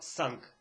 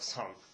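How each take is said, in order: First: The word is said with a hard, crisp sound. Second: The word is said softly, with sounds swallowed. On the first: "я произношу это на кхамском диалекте" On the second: "на алхасском это звучит как санг. Чуть разница"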